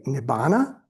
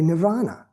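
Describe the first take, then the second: First: "nibbana" as nib-BAH-na, no r sound; alternative pronunciation. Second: "nirvana" as nir-VAH-na; alternative pronunciation. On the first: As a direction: say "nibbana" with a b in the middle. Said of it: "if you say nibbana". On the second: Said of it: "or you can say nirvana". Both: Shown as a demonstration.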